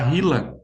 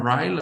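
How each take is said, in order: First: It is pronounced with Portuguese sounds. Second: It is pronounced with English sounds. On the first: This form is easier for local speakers to say. "para ser um pouco mais fácil da gente pronunciar" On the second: This is the original English name. "em inglês ele chama RILA"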